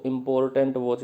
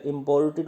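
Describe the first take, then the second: First: 'इंपॉर्टेंट' with -ant ending; mispronounced imported. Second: 'इंपोर्टेड' with -ted ending; correct imported. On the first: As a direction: say 'इंपॉर्टेंट', mistakenly ending in -tant. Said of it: "वो गलत बोलते हैं". ('इंपॉर्टेंट', अंत में गलत 'टेंट') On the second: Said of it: "वो गलत बोलते हैं। इंपोर्टेड होता है". ('इंपोर्टेड', अंत में साफ़ 'टेड') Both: Shown as a demonstration.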